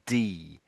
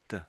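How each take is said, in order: First: The vowel is said fully and clearly. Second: The vowel is reduced to a soft schwa. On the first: The speaker calls it wrong. "it wouldn't be "d."" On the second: The speaker calls it right. "a soft sort of "d" sound"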